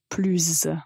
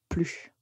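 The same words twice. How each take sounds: First: The word ends with a linking z sound. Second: The word ends without a final z sound. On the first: "il faut faire une liaison et dans ce cas-là, plus va être prononcé comme plus" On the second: "on ne prononce pas la lettre S, on dit plus"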